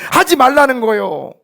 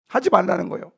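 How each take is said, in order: First: Loud, high pulpit command; forceful command. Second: Said in the usual way. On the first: Real, not acted. Pastor telling believers to stop gossiping, forceful command. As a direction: drive it home at full voice. Shouted take, then repeated calmly.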